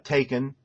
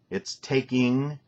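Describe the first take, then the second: First: The ending is said as a plain n sound. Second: The ending is said with a full ng sound. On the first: The speaker calls it wrong. "It's also not uh, taken" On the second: The speaker calls it right. "Get the G sound in there"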